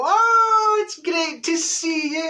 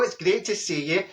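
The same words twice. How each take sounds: First: High, slow, gushing greeting; fake delight. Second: Plain-ish polite greeting; smiling politely; fake smile greeting. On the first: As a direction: squeal of fake joy. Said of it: "we go". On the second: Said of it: "put on your smile and go".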